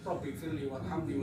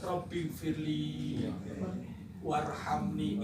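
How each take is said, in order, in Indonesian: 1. Vokalnya dibaca pendek dan terburu-buru. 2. Vokalnya dibaca panjang dan ditarik. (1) "karena tergesa-gesa dibaca pendek" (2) "Bacaan panjang"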